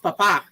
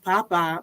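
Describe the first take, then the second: First: The stress is on the last syllable. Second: The stress is on the first syllable. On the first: It means father or priest. The speaker calls it right. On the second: It means potato. The speaker calls it wrong.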